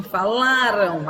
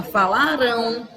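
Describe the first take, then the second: First: Falaram said slowly with the stress on the second-to-last syllable, fa-LA-ram; paroxytone stress. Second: Falarão with the stress on the final syllable, fa-la-RÃO; oxytone stress. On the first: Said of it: "Vai deixar de ser uma paroxítona". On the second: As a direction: land hard on RÃO at the end of falarão. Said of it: "e vai passar a ser uma oxítona". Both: Shown as a demonstration.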